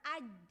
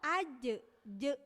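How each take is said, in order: First: The final consonant is held with no release. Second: The final consonant is released with a bounce. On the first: "aj kan itu tertahan ya. Suaranya tertahan dulu" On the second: "nah itu je-nya itu kolkolah"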